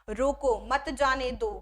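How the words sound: There is a pause right after रोको.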